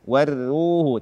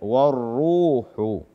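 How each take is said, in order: First: The r sound is thin and light. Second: The r sound is thick and heavy. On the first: The speaker calls it wrong. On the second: The speaker calls it right.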